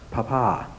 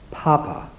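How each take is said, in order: First: "Papa" said pa-PA, second syllable stressed. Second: "Papa" said PA-pa, first syllable high and stressed. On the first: Naming another disc for the audience, second-syllable stress. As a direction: let "Papa" land on its last syllable. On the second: Naming the marked disc for the audience, first-syllable stress. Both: Shown as a demonstration. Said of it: "with the emphasis on the first syllable".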